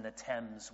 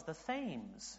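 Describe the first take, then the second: First: Thames said with a hard T, like "temz"; British pronunciation of Thames. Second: Thames said with a soft TH, like "thaymz"; mistaken American pronunciation. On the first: Shown as a demonstration. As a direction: say Thames as "temz", short vowel. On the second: Retold or imitated. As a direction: mispronounce Thames to rhyme with "names". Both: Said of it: "in America everyone says".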